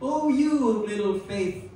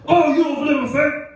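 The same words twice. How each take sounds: First: It is said in a gentle, tender tone. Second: It is said in a harsh, scolding tone.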